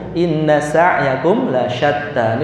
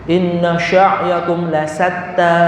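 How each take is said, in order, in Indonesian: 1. Sa'yakum dimulai dengan s dan lasyatta punya sh. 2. Sa'yakum dimulai dengan sh dan lasyatta punya s.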